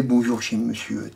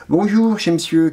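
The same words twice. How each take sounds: First: Softer, lowered echo of the greeting; subdued quoted greeting. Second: Higher-pitched quoted greeting. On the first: Reader echoing a man's habitual hello, subdued. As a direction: repeat the greeting low and soft. Same greeting repeated low and soft. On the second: Reader quoting a man's habitual hello, pitched high. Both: Acted.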